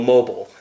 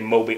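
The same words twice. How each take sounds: First: It has an American English pronunciation. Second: It has a German pronunciation. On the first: "I think American English would be, well, mobile" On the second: "if I knew that it was German, I would have been like, okay, mobile"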